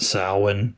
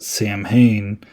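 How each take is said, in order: First: It does not sound like 'Sam Hain'. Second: It sounds like the two words 'Sam Hain'. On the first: This is the real pronunciation. The speaker calls it right. "it's really pronounced Samhain" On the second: This is how a film character says it. The speaker calls it wrong. "as Loomis pronounced it"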